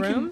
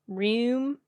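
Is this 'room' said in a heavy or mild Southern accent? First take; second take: mild; heavy. First: The word has a mild, ordinary vowel. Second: The word has a heavy, rural Southern vowel. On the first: "I don't think I say the word room like that" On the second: "if you get really super, you know, backwoodsy"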